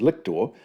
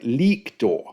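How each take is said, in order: First: The first vowel is short. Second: The first vowel is long. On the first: The speaker calls it wrong. "the English form of the guy's name is Lictor" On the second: The speaker calls it right. "the Latin has a long vowel sound at the start"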